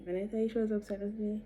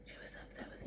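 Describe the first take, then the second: First: Said in the usual way. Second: Dropped to a whisper; hushed, stressing it; whispered emphasis. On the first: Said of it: "emphatic repeat, then whisper". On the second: Real, not acted. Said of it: "emphatic repeat in whisper".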